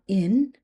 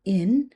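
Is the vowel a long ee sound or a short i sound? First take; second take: short i; short i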